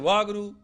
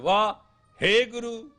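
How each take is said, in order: First: It is said as Wah Guru, without a hey. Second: It is said as Wah, hey Guru. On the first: The speaker calls it wrong. "you blew it" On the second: The speaker calls it right. "you made it"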